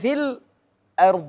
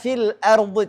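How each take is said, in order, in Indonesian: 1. Jeda singkat terjadi sebelum hamzah. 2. Kata-kata itu menyambung tanpa jeda.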